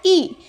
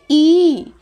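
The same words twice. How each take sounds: First: ई cut off quickly, short vowel; short clipped ई. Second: ई stretched out, long vowel; long drawn ई. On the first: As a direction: say ई in one quick jerk. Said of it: "झटके से बोलना होता है". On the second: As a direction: pull the ई out long. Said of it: "खींच के बोलते हैं". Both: Shown as a demonstration.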